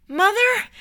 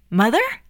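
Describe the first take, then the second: First: Very high, desperate call; high-pitched cry to someone slipping away. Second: Puzzled, rising MOTHER; bewildered, searching query; confused question. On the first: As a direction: call after her, pitched way up. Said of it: "he called out". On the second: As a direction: ask it uncertainly, lifting high at the end. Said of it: "Edgar was confused". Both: Acted.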